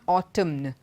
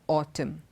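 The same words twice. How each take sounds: First: The final n sound is pronounced. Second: The final n sound is silent. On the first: The speaker calls it wrong. "It's not autumn" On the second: The speaker calls it right. "it's autumn... the N is silent"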